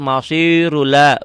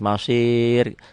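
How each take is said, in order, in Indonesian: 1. Bunyi r-nya berat dan menyambung ke kata berikutnya. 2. Kata ini berhenti pada r yang ringan dan tipis. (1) "Ro ini menjadi tebel kalau diteruskan"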